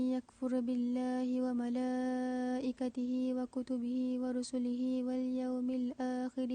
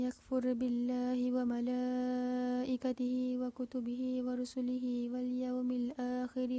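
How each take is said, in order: The two takes are said the same way.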